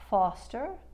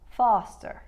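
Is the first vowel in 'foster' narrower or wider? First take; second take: narrower; wider. First: The first vowel is a narrower aw sound. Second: The first vowel is a slightly wider sound. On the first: "the difference between aw and ah" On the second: "Brooklyn or the Bronx, they'll usually only make it slightly wider"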